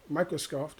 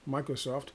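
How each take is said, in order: Both takes have the same delivery.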